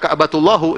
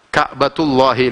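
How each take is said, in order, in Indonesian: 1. Frasa ini berakhir dengan vokal 'u'. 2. Frasa ini berakhir dengan vokal 'i'.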